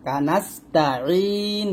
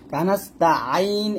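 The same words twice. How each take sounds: First: কানাস্তা আইন ending in a pressed long "een", no A; throat-pressed I sound on আইন; correct low vowel. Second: কানাস্তা আইন ending in an open "aa-in"; wrong vowel. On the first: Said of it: "বলবেন". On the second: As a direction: say আইন with a wide A before the I. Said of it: "এরকম না". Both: Shown as a demonstration.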